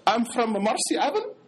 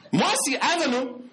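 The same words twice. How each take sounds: First: Put-on Arab-accented English, rising at the end; mock Arab accent. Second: High, disbelieving repeat; incredulous echo. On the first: Convert telling where he's from, in a mock Arab accent. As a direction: imitate a Brooklyn man's borrowed Arab accent. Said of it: "he don't talk like this". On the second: Retold or imitated. Speaker doubting the convert's accent, high-pitched and incredulous.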